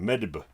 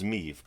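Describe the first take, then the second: First: The name ends with a b sound. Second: The name ends with a v sound. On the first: The speaker calls it wrong. "I was pronouncing this as Queen Medb" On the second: The speaker calls it right. "I found out her pronunciation is Meve"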